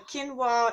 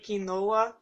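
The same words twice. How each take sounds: First: It is said with the American pronunciation. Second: It is said with the Brazilian pronunciation. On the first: "the American version of how you say that" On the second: "in Brazil they do say quinoa"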